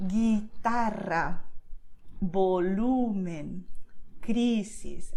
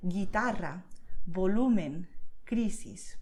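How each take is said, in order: First: Guitarra, volumen, crisis very slow, drawn out on TA, LU, CRI; penultimate syllable stressed. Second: Guitarra, volumen, crisis at natural pace, stressed on TA, LU, CRI; penultimate syllable stressed. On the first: Teacher showing how you do it, slow stressed Guitarra, volumen, crisis. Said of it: "this is how you do it". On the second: Teacher repeating it for learners, natural-pace stress on Guitarra, volumen, crisis. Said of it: "I'm going to repeat it". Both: Shown as a demonstration.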